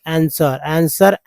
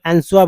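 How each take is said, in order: First: आंसर said "ansar" with a silent W; correct pronunciation. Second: आंसर said as "ansuar", sounding the W; wrong pronunciation. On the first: Teacher giving students the right आंसर with the W silent. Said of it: "तो वो उच्चारण गलत हो जाता है". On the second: Teacher imitating students who wrongly say आंसर with the W. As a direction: mispronounce आंसर with a spoken W before the R. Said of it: "कुछ लोग आंसर बोल देते हैं". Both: Shown as a demonstration.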